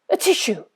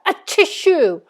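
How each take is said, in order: First: It is said very quietly. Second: It is said loudly.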